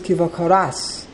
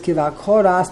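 First: The stress is on the last syllable. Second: The stress is on the second-to-last syllable. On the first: The speaker calls it right. "So that means the pronunciation is Kiva Koras" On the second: The speaker calls it wrong. "They put the emphasis on the Kuf. It appears to be wrong"

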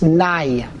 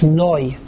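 First: The vowel sounds like 'ah'. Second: The vowel sounds like 'oh'. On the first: The word refers to human masters, not the divine name. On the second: The word refers to the divine name. "When it's Kodesh, it's Noi"

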